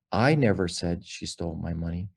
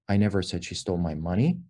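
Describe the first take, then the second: First: "I" stressed, rest of the line even. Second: "money" stressed with a rise at the end. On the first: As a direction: lean on the word "I". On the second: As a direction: lean on the word "money". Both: Shown as a demonstration. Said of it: "to emphasize different words".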